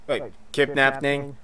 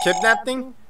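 First: Said in the usual way. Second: Surprised. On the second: Acted.

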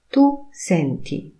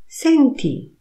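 First: Said in the usual way. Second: "Senti" much higher and falling; commanding tune. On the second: Shown as a demonstration. Teacher says "Senti" as an order, high and falling. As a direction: call out "Senti" to get attention. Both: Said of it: "intonacja powodują".

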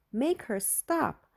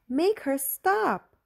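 First: Higher, slow drawn-out plea; begging, stretching each word; frantic pleading. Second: Much higher, louder, slow wailing plea; frantic cry. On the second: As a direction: build to a desperate cry for mom. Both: A narrator's reading. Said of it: "Julie went crazy".

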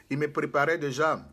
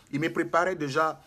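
No difference in how they are said.

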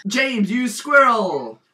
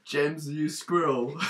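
First: Higher, louder, drawn-out cry; loud mock insult. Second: Drawn-out, subdued delivery; slow mock insult. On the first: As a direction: call it out slowly with big emphasis. Repeats silly insult more forcefully. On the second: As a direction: say it slowly, holding back. First take of repeated silly insult.

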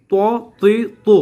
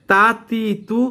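First: ত তি তু rounded, loud and higher; heavy to series. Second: তা তি তু thin, raised pitch; light ta series. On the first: Teacher asking students to compare, heavy rounded to. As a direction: push out ত তি তু with round, full lips. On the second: Teacher asking students to compare, thin light ta. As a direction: say তা তি তু with spread lips. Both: Shown as a demonstration. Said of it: "পার্থক্য আছে নাকি নাই?".

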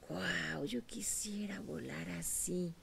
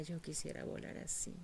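First: Slow, hushed whisper of wonder; awed whisper. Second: Faint, sad whispered wish; sad longing. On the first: Eaglet to itself, watching the eagle, awed whisper. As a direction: breathe it out in longing awe. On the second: Eagle watching its sister fly, sad whisper. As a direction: say it as a hopeless wish, barely aloud. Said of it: "la veía con tristeza". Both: Acted.

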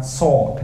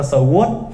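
First: "sword" as one syllable, silent w, sawd; correct pronunciation of sword. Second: "sword" split in two, suh-WOOT; wrong pronunciation of sword. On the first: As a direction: say sword properly without the w. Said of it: "cái từ này phát âm là sword". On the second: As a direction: say sword with the w sounded. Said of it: "thì bạn cứ phát âm là sword". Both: Shown as a demonstration.

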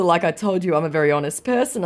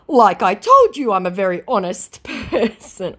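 First: Said in the usual way. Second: High mock-earnest voice; hammed-up protest breaking into a laugh; protesting scammer. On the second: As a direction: insist in a pitched-up put-on voice.

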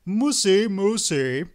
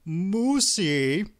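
First: High, loud sing-song on "Moosey, Moosey"; sing-song call. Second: Put-on high, whiny call of a pouting boy; petulant little boy. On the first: Hungry husband calling indoors to his wife, sing-song "Moosey". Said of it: "called out in a sing-song voice". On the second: Hungry husband calling his wife, petulant little boy. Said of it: "called in the voice of a petulant, chubby little boy". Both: A narrator's reading.

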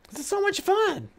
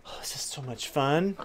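First: Squeaky voice. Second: Said in the usual way. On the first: Pretend. Repeated line, higher voice.

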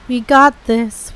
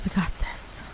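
First: Self-encouraging. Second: Whispered to self. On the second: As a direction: breathe it out in a whisper. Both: Real, not acted.

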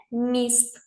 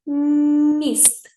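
First: Said in the usual way. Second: Long hummed "М" opening "Міст", higher pitched; stretched first sound. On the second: Shown as a demonstration. Teacher pronouncing for analysis, long "М" in "Міст". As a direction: hold the first consonant of "Міст" on a level note. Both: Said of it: "Вимовляємо".

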